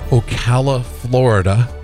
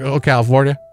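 First: It is said plainly, without a Southern accent. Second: It is said fast in a Southern accent.

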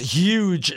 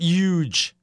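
First: The word begins with an h sound. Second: The word begins without an h sound. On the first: The speaker calls it right. "it's huge" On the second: The speaker calls it wrong. "I don't throw in my H in there"

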